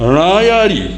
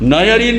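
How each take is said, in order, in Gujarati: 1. આ શબ્દ મૂર્ધન્ય n અવાજથી શરૂ થાય છે. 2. આ શબ્દ દંત્ય n અવાજથી શરૂ થાય છે.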